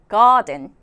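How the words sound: The r is silent and the t is crisp. "R이 묵음이요. ... 저랑 같이 한번 읽어볼까요?"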